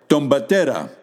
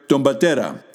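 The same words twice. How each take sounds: No difference in how they are said.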